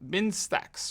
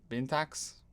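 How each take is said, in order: First: It has an s sound before the t. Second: It has no s sound before the t. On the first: The speaker calls it right. "it has an S, so it's like Instax with a B" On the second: The speaker calls it wrong. "I've been saying wrong"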